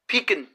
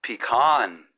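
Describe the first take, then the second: First: "pecan" said as PEE-kun, stress on the first syllable; one pecan pronunciation. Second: "pecan" said as pi-KAHN, with a long open second syllable; regional pecan. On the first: Shown as a demonstration. Host contrasts his "pecan" with a listener's: PEE-kun. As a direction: say "pecan" with a short, weak kun at the end. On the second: Retold or imitated. Host mimics how the listener's region says "pecan": pi-KAHN. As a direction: say "pecan" the way they say it where you're from: pi-KAHN. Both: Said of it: "or as they say where you're from".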